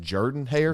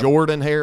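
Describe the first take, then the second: First: The first name departs from its spelled vowel. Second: The first name follows its spelled vowel. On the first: The speaker calls it right. "you actually pronounce it Jordan Hare" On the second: The speaker calls it wrong.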